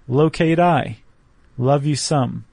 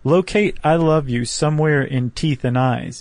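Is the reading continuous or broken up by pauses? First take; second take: paused; continuous. First: A pause follows nearly every short phrase. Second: The words run on without pauses between phrases. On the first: "leaving a beat after just about every line" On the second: "if you just read it like that, it's whatever"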